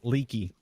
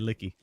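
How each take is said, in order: First: The name is said in an exaggerated Australian accent. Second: The name is said in a neutral accent. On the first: "a very exaggerated Australian accent" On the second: "he would be trying to say licky"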